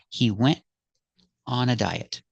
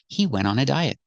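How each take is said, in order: First: The T in went is a brief stop. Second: The T in went is not heard at all. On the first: "You can make a stop T and make the position of the T" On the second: "some people don't pronounce the T at all"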